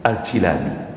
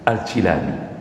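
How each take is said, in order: First: The name is said as Al-Jilani, with 'i'. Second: The same.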